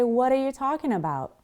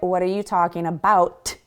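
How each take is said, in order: First: The final T is soft and barely released. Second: The final T is fully closed and released. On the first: The speaker calls it right. "I say, ... It's very soft" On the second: The speaker calls it wrong. "I don't close that T sound in my mouth. I don't say"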